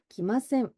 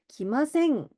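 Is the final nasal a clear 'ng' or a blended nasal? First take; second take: blended; ng. First: The final nasal falls between 'ng' and 'n'. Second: The final nasal is a clear 'ng' sound. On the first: "약간 요런 뉘앙스예요" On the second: "이렇게 이응으로 발음하셔도 나쁘지 않지만"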